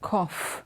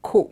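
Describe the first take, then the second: First: The word ends with an f sound. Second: The word ends without an f sound. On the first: The speaker calls it right. "The O sound becomes f" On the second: The speaker calls it wrong. "it's not co"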